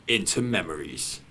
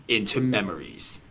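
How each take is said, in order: The two takes are said the same way.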